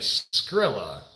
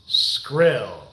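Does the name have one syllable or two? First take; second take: two; one. First: The name ends with an extra 'a' syllable. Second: The name ends without an 'a' syllable. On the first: The speaker calls it wrong. "If I'm saying it wrong, let me know down below" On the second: The speaker calls it right. "so there's no A at the end"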